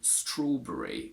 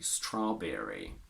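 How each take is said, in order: First: The vowel in 'berry' is dropped or reduced. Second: The vowel in 'berry' is full and strong. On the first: This is the British way of saying it. "We say strawberry, where we basically always remove the schwa" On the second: This is the American way of saying it. "they keep a strong sound and they say strawberry"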